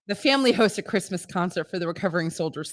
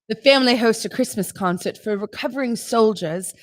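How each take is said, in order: First: It is read in her normal voice. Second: It is read in a put-on accent.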